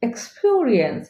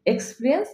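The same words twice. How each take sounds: First: "এক্সপিরিয়েন্স" as eks-pio-ri-ens; correct pronunciation. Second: "এক্সপিরিয়েন্স" squeezed to eks-pri-ens; no glide in এক্সপিরিয়েন্স, just pri-ens; wrong pronunciation. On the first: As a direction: glide the middle vowel of এক্সপিরিয়েন্স. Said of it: "correct pronunciation". ("এক্সপিরিয়েন্স" শুদ্ধ উচ্চারণ) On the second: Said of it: "উচ্চারণ হবে না". ("এক্সপিরিয়েন্স" ভুল এক্সপ্রিয়েন্স উচ্চারণ) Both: Shown as a demonstration.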